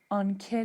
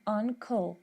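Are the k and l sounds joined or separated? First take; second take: joined; separated. First: The k and l sounds run together. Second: The k and l sounds are kept apart. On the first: The speaker calls it wrong. "نمیگم" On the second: The speaker calls it right. "صدای ک و ل به هم نچسبیده"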